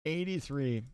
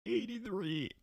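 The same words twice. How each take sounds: First: Said in the usual way. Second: High, soft inhaled alien voice. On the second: Pretend. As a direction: talk like a clicking alien. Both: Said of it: "that was my alien voice".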